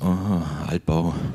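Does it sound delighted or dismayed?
dismayed. It sounds dismayed and disappointed.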